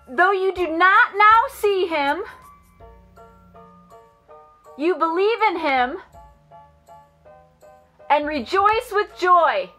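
It is said in a loud voice.

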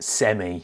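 The word is said the British way. "We pronounce it semi, of course, because, well, we're British"

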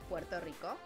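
It is said with a Spanish pronunciation. "in Spanish, it's"

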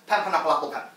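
The words run together like one word. The speaker calls it right. "we like to say one sentence, even if it's very long, as one word"

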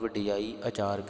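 The 'aa' sound starts the second word, read quickly. The speaker calls it wrong. "ਇਹਨੂੰ ਵੀ ਕਈ ਵਾਰ ਤੇਜ਼ ਆਪਾਂ ਪੜ੍ਹਦੇ ਹਾਂ"

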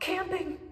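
It is said in a scared voice.

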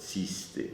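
The word begins with a 'ts' sound. This is how the Podhale dialect says it.

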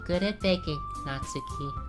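The voice sounds fully robotic and computerized. "Should I just go full GLaDOS?"

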